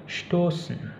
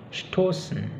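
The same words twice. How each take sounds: Both takes have the same delivery.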